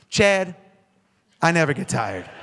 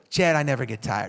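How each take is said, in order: First: It is said forcefully, with conviction. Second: It is said weakly, without conviction.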